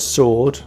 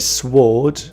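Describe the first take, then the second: First: The W sound is silent. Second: The W sound is pronounced. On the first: The speaker calls it right. "the W is silent" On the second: The speaker calls it wrong. "We don't say sword"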